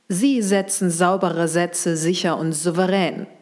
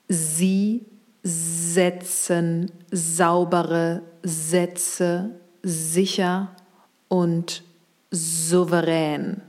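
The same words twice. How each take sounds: First: The sentence is spoken at a faster pace. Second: The sentence is spoken at a slow pace. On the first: "Etwas schneller"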